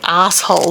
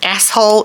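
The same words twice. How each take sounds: First: It is said with an Australian pronunciation. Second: It is said with a non-Australian pronunciation. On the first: "We say asshole" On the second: "is not the way Australians say it"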